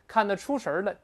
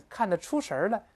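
The two takes are said the same way.

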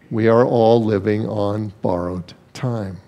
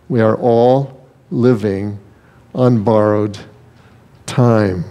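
First: Said in the usual way. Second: "We are all living, on borrowed, time" broken by weighty pauses; slow down and let "time" land alone after a pause; deliberate repetition. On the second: Shown as a demonstration. Preacher driving the first truth home to the congregation, slow and deliberate.

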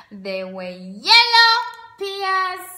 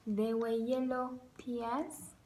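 First: Sung. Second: Quiet. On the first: Sung food rhyme. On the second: Spoken repeat. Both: Acted.

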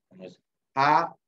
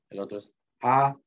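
First: A said on a high level tone. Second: A gliding upward in a rise; rising tone A. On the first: Teacher demonstrating Bribri high tone on A. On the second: Teacher contrasting the rising tone on A for students. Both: Shown as a demonstration. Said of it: "uno es A y otro es A".

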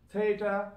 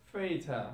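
First: "Theatre" opened without an F, high and loud; TH kept. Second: "theatre" said as "featre". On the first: Teacher giving the form before Cockney, "Theatre" with TH. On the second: Teacher showing learners Cockney British, "theatre" with F for TH. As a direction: start "theatre" on an F. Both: Shown as a demonstration. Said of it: "T H will turn into fur sound".

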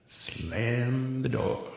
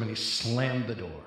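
First: Very slow, drawn out, slammed the door; dad tick repeat. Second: Said in the usual way. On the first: Shown as a demonstration. Comic dad repeating slammed the door, very slow. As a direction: let the dad tick drag each word out slowly. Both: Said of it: "I got the dad tick going on".

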